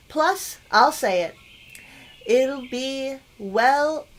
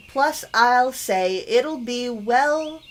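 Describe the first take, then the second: First: Full break after "I'll say it"; misread phrasing. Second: No break between "say" and "it'll"; corrected phrasing. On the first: Player misreads the letter, "Plus, I'll say it." broken off as its own sentence. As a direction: stretch "well" out as if ending on it. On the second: Player rereads the letter line, joining "say it'll be well" without a stop. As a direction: run "I'll say it'll be well" together as one phrase. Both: Real, not acted. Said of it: "that's not quite right".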